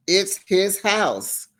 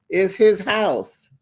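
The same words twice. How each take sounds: First: "It's his house" said even slower, "his" punched; very slow repeat, "his" stressed. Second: "his" leaned on, said slowly and pointedly; slow down and hit "his" in "It's his house"; slow "It's his house" with weight on "his"; stress on his. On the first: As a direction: drag "It's his house" out and land hard on "his". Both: Shown as a demonstration.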